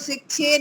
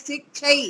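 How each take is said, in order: First: The word ends in a plain 'e' vowel. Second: The word ends in a clear 'a-i' diphthong. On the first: The speaker calls it wrong. "जो दो मात्रा वाला है उसको शिक्षे नहीं बोले, वो एक जैसा ही लगता है" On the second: The speaker calls it right. "ऐसा बोलिए"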